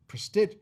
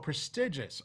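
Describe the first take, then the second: First: The word is cut short, ending after 'prestig'. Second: The word is said in full with every syllable. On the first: The speaker calls it wrong. "like prestig" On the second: The speaker calls it right. "learn just a little bit on the enunciation"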